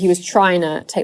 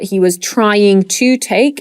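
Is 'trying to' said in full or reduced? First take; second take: reduced; full. First: 'Trying to' is reduced, with sounds run together. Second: 'Trying to' is said in full, each sound clear.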